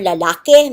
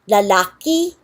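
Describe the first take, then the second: First: The final vowel is an 'e' sound. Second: The final vowel is an 'i' sound. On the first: "people sometimes say lalaki or lalake" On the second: "people sometimes say lalaki or lalake"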